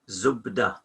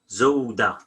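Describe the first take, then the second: First: The middle consonant is a B sound. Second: The middle consonant is a W sound.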